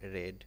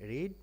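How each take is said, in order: First: The vowel is short, as in 'red'. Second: The vowel is long, as in 'reed'. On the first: It is the past participle. "বানানটি একই হলেও উচ্চারণ কিন্তু change হয়ে যায়" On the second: It is the present tense. "রিড present form"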